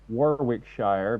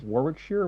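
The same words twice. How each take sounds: First: It is pronounced the American way. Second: It is pronounced the British way. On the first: "I would say Warwickshire" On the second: "You guys in the U K like to pronounce things odd"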